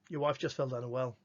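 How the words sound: It is said as a flat statement.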